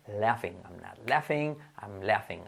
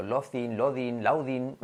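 First: "laughing" as "LA-fing", F sound; low, soft model of "laughing"; correct pronunciation. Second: "laughing" as "lo-thin", "lo-din", "lau-din"; slowly mangle "laughing" with th and d; learners' mispronunciations. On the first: Teacher reminding students of it, correct pronunciation. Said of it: "acuérdate". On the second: Teacher mimicking what people say, learners' mispronunciations. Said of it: "la gente salimos diciendo". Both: Shown as a demonstration.

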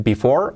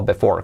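First: "before" as bee-FOR, clear I in the first syllable; first variant. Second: "before" as beh-FOR, E in the first syllable; second variant. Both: Shown as a demonstration. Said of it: "Podéis decir before o before".

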